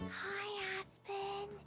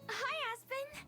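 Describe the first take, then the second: First: It is said quietly. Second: It is said loudly.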